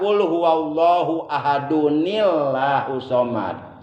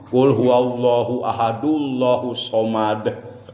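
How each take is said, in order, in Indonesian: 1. Bunyi n-i yang ditambahkan menghubungkan ahad ke Allah. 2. Ahad langsung menyambung ke Allah tanpa n. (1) "Pakai nun hikoyah" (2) "Ini udah ketahuan enggak paham tajwid nih"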